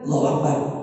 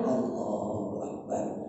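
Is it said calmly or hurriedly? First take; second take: hurriedly; calmly. First: It is said hurriedly, without calm. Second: It is said calmly and unhurriedly.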